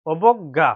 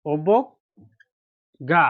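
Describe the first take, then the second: First: Said in the usual way. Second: অবজ্ঞা drawn out very slowly; 1 slow model word. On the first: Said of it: "normal repeat". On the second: Shown as a demonstration. Teacher shows pupils the word অবজ্ঞা, very slowly. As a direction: stretch অবজ্ঞা syllable by syllable. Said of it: "teacher models the word slowly".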